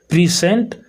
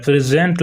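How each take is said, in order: First: प्रेजेंट as pri-sent, rising at the end; verb pronunciation. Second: प्रेजेंट with a z sound, as the noun; noun pronunciation. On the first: Teacher naming the verb for students, प्रेजेंट with s. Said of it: "आपका verb हो गया". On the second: Teacher naming the noun for students, प्रेजेंट with z. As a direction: say प्रेजेंट as pre-zent, the noun. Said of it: "प्रेजेंट noun हो गया". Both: Shown as a demonstration.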